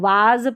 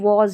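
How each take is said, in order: First: The vowel is an open 'aa' sound. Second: The vowel is a rounded 'o' sound. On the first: The speaker calls it wrong. "अक्सर कई लोग गलती से इसको वाज पढ़ देते हैं, जो बिल्कुल गलत है" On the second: The speaker calls it right. "इसको वॉज ही पढ़ना है।"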